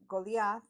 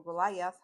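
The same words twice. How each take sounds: First: Goliath said "go-lee-ath"; Goliath with an "ee" sound in the middle, like "go-LEE-ath". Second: Goliath said "go-lie-ath"; Goliath with a long "i" in the middle, like "go-LIE-ath"; Goliath with eye. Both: Shown as a demonstration. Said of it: "not sure how to pronounce it".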